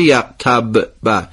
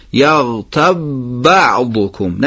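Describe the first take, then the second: First: Slow, یغتب ب with an extra jolt on the ب; wrong bounced ب. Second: Slow, یغتب joined to بعضکم with no bounce; no echo on ب. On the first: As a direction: show the mistaken qalqala on the ب of یغتب. (یغتب ب با قلقله اشتباه) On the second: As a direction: keep the ب of یغتب still, no qalqala. (یغتب بعضکم بدون قلقله) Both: Shown as a demonstration. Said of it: "نشه یغتب ب، تکون نخوره".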